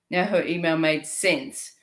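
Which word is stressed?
sense. The stress falls on the word sense.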